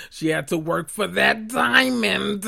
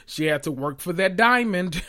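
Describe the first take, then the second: First: Slower, repeating the joke while laughing; giggling at her own joke on diamond; laughing through it. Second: Said in the usual way. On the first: Real, not acted. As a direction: crack yourself up on the repeat.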